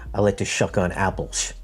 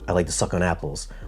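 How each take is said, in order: First: The word suck starts with an sh sound. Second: The word suck starts with a crisp s. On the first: The treble is cut off. The speaker calls it wrong. "Marantz would sound like" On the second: The treble detail is preserved. The speaker calls it right. "X T Z sounds like"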